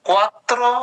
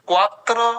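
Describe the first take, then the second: No difference in how they are said.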